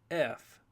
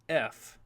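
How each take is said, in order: First: It is said as the full letter name. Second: The same.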